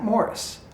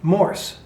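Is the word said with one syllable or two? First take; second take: two; one. First: The word is said with two syllables. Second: The word is said with one syllable. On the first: The speaker calls it wrong. "It's not M O R I S" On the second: The speaker calls it right. "It's Morse"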